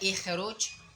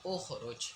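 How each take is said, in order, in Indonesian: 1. Kata ini diawali dengan vokal i. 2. Kata ini diawali dengan vokal u. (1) "apakah ikhruj bukan" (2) "u ukhruj"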